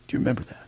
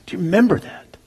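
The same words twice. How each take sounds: First: Breathy whispered echo of "Do you remember that". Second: Said in the usual way. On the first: Shown as a demonstration. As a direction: whisper it to each listener. Whispered repeat of question.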